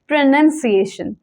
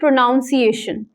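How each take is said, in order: First: The second syllable sounds like 'nun', not like pronounce. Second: The second syllable sounds like 'nown', as in pronounce. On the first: The speaker calls it right. "The correct प्रोनाउंसिएशन is प्रोनंसिएशन" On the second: The speaker calls it wrong. "जब आप सिएशन add करते हैं तो आप बोल देते हो प्रोनाउंसिएशन, which is wrong"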